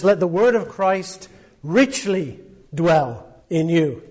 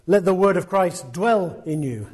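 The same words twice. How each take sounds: First: Richly drawn out and weighted; slow, emphatic reading with richly stressed. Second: Said in the usual way. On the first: Shown as a demonstration. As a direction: lean slowly into the word richly. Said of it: "He says". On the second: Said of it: "doesn't just say".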